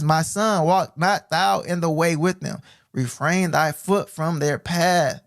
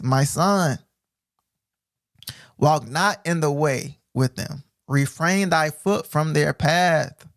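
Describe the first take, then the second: First: Slow, solemn reading again; measured preacher's reading; scripture reread. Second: Very slow, solemn reading; measured preacher's reading; scripture reading. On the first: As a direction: lean on the warning, slowly. Rereading verse slowly. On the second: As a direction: draw out the warning. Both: Acted.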